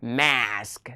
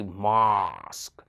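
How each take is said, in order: First: MASK with the American short front A; American-style MASK, vowel as in "man"; American pronunciation. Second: MASK with a long, open back AH; British-style MASK, vowel as in "father"; British pronunciation. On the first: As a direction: say MASK with a flat "a" as in cat. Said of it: "in America, they say". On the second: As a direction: say MASK drawn out, like "mahsk". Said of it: "but in British, they say". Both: Shown as a demonstration.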